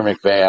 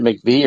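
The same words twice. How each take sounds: First: "McVay" ending in an ay sound; McVay pronunciation. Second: "McVee" ending in a long ee; McVee pronunciation. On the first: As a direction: say "McVay" to rhyme with day. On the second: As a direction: say "McVee" to rhyme with see. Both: Shown as a demonstration. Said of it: "how to pronounce it".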